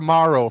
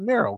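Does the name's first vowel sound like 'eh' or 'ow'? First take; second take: ow; eh. First: The first vowel sounds like 'ow'. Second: The first vowel sounds like 'eh'. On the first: The speaker calls it wrong. "butchers your last name... I don't think you pronounce it that way" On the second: The speaker calls it right. "you pronounce it Mero, correct?"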